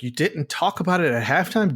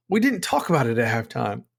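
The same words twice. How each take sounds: First: Disbelieving, pitched-up question; incredulous. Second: Said in the usual way. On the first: Retold or imitated. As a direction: throw his words back in disbelief. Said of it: "It's like". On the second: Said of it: "what he said about halftime".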